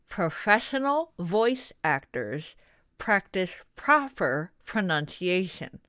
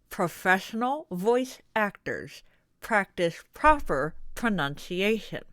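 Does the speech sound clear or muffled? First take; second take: muffled; muffled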